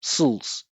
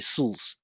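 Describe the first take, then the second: First: The vowel drops, leaving a syllabic L. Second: The vowel drops, leaving a syllabic L.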